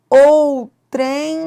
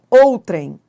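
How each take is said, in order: First: The stress is on the last syllable. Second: The stress is on the first syllable. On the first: The speaker calls it wrong. "outrem não" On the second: The speaker calls it right. "é outrem. Ela é uma paroxítona"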